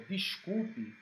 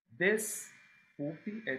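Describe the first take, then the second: First: Said in the usual way. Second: "Desculpe" drawn out very slowly, syllable by syllable; slow stressed word. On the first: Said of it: "Desculpe é "tire a culpa". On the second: Shown as a demonstration. Teacher slowly unpacks "Desculpe" to show it means remove the guilt. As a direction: stretch out "Desculpe" to show its parts. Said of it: "tire a culpa".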